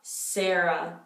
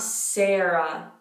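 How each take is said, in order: The two takes are said the same way.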